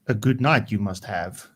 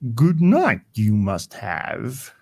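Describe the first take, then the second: First: It is said in a normal voice. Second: It is said in an imitation of Yoda's voice.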